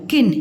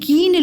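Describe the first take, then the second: First: The vowel after k is short. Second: The vowel after k is long. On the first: The speaker calls it right. "सही उच्चारण है इसका, किन होता है" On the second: The speaker calls it wrong. "कीन लोगों के बारे में नहीं"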